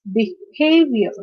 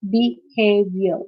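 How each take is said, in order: First: "behavior" slowly, be-HAV-ior; second-syllable stress. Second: "behavior" slowly as be-hav-ior; syllable by syllable. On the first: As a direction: lean on the middle syllable of "behavior". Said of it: "stress is on the second syllable". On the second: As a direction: break "behavior" into three parts. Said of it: "this is a three-syllabic word". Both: Shown as a demonstration.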